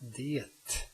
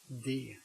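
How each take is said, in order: First: The word ends with a t sound. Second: The word ends without a t sound. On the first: "The next one is det" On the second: "where you just say det"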